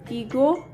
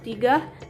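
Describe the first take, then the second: First: The word ends with an 'o' vowel. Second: The word ends with an 'a' vowel. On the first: "misalnya pada kata tigo" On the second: "yaitu tiga"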